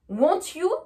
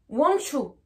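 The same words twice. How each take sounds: First: The t and y are said separately. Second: The t and y merge into a ch sound. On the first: The speaker calls it wrong. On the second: The speaker calls it right.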